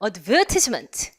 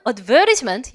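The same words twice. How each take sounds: First: "advertisement" as ad-VER-tis-ment, lower pitch; British "advertisement" with a clear short "tis"; British pronunciation. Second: Australian "advertisement" with a flapped t; Australian pronunciation. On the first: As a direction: stress VER in "advertisement", crisp t. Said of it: "영국 발음". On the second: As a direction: stress VER in "advertisement", soften the t. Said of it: "호주 발음". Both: Shown as a demonstration.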